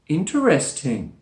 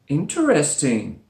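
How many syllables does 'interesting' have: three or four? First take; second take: four; four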